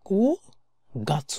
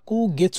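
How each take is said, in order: First: The second word is pronounced gatsu. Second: The second word is pronounced getsu. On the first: The speaker calls it right. "কু গাছু হবে" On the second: The speaker calls it wrong. "কু গেছু না"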